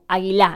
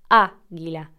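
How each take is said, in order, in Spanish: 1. La tónica está en una sílaba posterior. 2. La tónica está en la primera sílaba. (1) "no decimos águila o águila" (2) "es águila"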